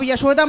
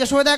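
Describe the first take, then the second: First: "यशोदा" begun with a y glide; present-day pronunciation. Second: "यशोदा" begun with j, as Jasoda; older j-form of "यशोदा"; older pronunciation. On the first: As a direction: say "यशोदा" with an initial y sound. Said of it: "अब यशोदा मैया कह रहे हैं". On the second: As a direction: say "यशोदा" with j in place of y. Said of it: "पहले यशोदा कहा जाता था". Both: Shown as a demonstration.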